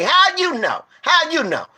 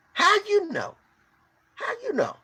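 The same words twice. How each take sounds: First: High, insistent demand; near-shouted how you know; heated challenge. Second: Much higher and much softer, almost breaking; pleading how you know; high softer plea. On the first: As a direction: fire the question back at her. Demanding proof from the preacher-lady. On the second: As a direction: ask it hushed and high. Repeating the challenge more softly. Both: Real, not acted.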